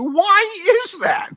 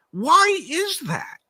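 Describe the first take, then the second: First: Higher and louder, slow and drawn out; more emphatic rhetorical question. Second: High, slow, drawn-out why; emphatic rhetorical question. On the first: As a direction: push it even higher, slowly. Repeats question, even more emphatic. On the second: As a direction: stretch it out, pitched up high. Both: Real, not acted.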